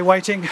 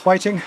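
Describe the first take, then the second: First: A hint of a Chinese accent on "Waiting"; lightly voiced Chinese accent; mock Chinese accent. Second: "Waiting" again in a light mock Chinese accent; lightly voiced Chinese accent on "Waiting"; mild put-on Chinese accent. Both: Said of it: "I did that accent".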